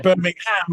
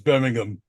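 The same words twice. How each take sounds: First: The name is said with every sound in full. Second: The name is said lazily with sounds dropped. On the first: The speaker calls it wrong. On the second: The speaker calls it right.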